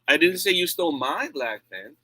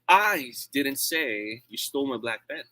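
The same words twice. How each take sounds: First: The stress is on the word 'my'. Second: The stress is on the word 'I'. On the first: The stolen pen belonged to someone else. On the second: Someone else said it. "It means I'm not the one who said that"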